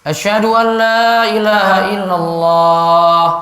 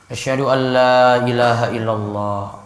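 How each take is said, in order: First: The phrase is said loudly and strongly. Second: The phrase is said softly and quietly. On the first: "Ulang lagi. Keras" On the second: "dua kalimat syahadat pelan dulu"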